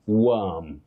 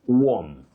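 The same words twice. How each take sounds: First: The vowel is the central 'uh' sound. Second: The vowel is not the central 'uh' sound. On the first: The speaker calls it right. "with what we call the mid-central sound, uh" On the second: The speaker calls it wrong. "many people say worm"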